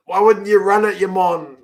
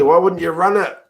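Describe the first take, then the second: First: WOULDN'T punched high in disbelief; exasperated repeat. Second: Said in the usual way. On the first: Real, not acted. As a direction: lean hard on wouldn't, like shouting at the screen. Exasperated fan repeating louder.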